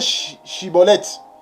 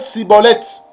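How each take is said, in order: First: The word begins with a 'sh' sound. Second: The word begins with an 's' sound. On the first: The speaker belongs to the group and is spared. The speaker calls it right. "il faut bien prononcer chibolette" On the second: The speaker is exposed as a foreigner. The speaker calls it wrong. "Il ne faut pas prononcer cibolette"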